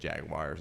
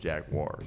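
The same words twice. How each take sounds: First: It uses the local Ohio pronunciation. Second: It uses the standard pronunciation. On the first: This is how people in Ohio say it. The speaker calls it wrong. "people here in Ohio just say Jaguars" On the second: This is the official way to say it. The speaker calls it right. "it's actually pronounced Jaguars"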